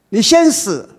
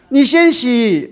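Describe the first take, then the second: First: The last word is said with an 's' sound. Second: The last word is said with an 'x' sound.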